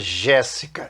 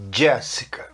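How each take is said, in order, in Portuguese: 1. Começa com um som suave de 'zh'. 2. Começa com um som de 'dj'. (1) "Não é Jéssica" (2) "O J no início de palavra tem som de D J"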